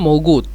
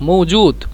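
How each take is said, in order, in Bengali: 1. মাঝের ব্যঞ্জনটি একটি g ধ্বনি। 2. মাঝের ব্যঞ্জনটি একটি j ধ্বনি। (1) "জিমকে মিশরীয় গয়ন হিসেবে ব্যবহার করে এই জন্য মৌগুত" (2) "মৌজুদ মূলত"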